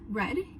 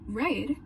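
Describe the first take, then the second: First: The vowel is short and clipped. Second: The vowel is long and drawn out. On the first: "in normal American accent" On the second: "in Southern American accent"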